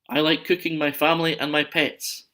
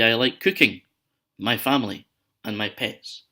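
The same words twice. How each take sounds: First: It runs straight through without pauses. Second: There are short pauses between the listed items. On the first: The speaker likes cooking the family and pets. The speaker calls it wrong. "Use commas, don't be psycho" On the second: The speaker likes cooking, family and pets separately. The speaker calls it right. "you can hear in my sentence there where I've paused"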